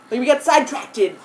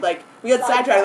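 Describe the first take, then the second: First: Sidetracted, with an extra -ted ending; the mistaken sidetracted the narrator believed as a kid; wrong childhood version. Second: Sidetracked ending cleanly in -tracked; the corrected sidetracked, set right after the wrong one; correct version. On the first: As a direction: say sidetracted as side-track-ted. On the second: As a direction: say sidetracked properly, side-tracked. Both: Shown as a demonstration. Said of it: "But it's actually sidetracked".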